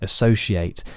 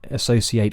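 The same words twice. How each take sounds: First: The middle consonant is a sh sound. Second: The middle consonant is a plain s sound. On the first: "as is an S H sound, a sh" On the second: "with an S"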